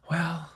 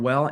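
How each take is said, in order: First: A sighed "Well," pushed out on a soft exhale; exhaled well. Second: Said in the usual way. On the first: Shown as a demonstration. Showing how a seller exhales "Well," when naming a hoped-for price. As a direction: let "Well," fall out with the breath like bracing for a punch. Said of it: "I said the word "well" and exhaled". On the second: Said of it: "I said the word".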